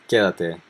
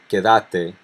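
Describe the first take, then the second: First: The stress falls on the first syllable. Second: The stress falls late in the word. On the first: This is the tú form. "instead of the tú, where it would be in the first syllable" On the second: This is the vos form. "it would be in the last syllable with vos"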